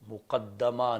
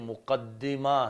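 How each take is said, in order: First: The vowel after the doubled d is 'a'. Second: The vowel after the doubled d is 'i'. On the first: It is the passive form: the thing put in front. The speaker calls it wrong. "मुक़द्दमा नहीं" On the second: It is the active form: the thing that goes ahead. The speaker calls it right. "हिया बिकस्र दाल"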